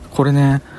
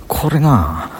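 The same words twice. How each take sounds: First: Said in the usual way. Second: これな with a Banshu drawn-out な; Banshu dialect. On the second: Shown as a demonstration. Vlogger sampling his local speech, Banshu dialect. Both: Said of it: "これ、播州弁やねんな".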